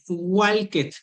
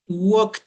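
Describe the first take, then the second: First: The ending is said as an extra syllable. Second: The ending adds no extra syllable. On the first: The speaker calls it wrong. "el uno no es walked, no" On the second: The speaker calls it right. "no pronunciamos la ed"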